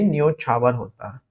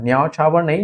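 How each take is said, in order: First: न्योछावर with a pure o; correct form न्योछावर. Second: न्यौछावर with au for o; wrong form न्यौछावर. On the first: Teacher confirming the correct word, pure o in न्योछावर. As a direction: round the o in न्योछावर, softer. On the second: Teacher repeating what is not correct, au in न्यौछावर. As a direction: open the first vowel of न्यौछावर to au. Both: Shown as a demonstration.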